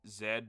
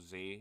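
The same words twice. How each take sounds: First: The letter is said the British way, 'zed'. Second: The letter is said the American way, 'zee'.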